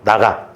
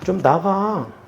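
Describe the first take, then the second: First: It is said forcefully, like a stern command. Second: It is said timidly, like a weak plea.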